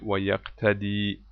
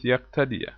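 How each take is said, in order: First: The verb ends without a short 'a' vowel. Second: The verb ends with a short 'a' vowel. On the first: The verb starts a new sentence. The speaker calls it right. "it's better to read it" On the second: The verb is joined to the previous clause. The speaker calls it wrong. "Some people read it with"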